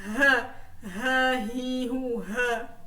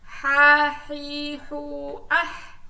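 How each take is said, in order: First: Drilled syllables "ha, hi, hu", light open h; light Arabic h. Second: "ha, hi, hu, ah" with a tight pharyngeal h; drilled "ha, hi, hu, ah", strong rasped ḥ; throaty Arabic h. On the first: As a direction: sound out "ha, hi, hu" evenly with plain h. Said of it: "ini bacanya". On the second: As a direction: squeeze the h from mid-throat in "ha, hi, hu, ah". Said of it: "Nah, ini bacanya ah". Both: Shown as a demonstration.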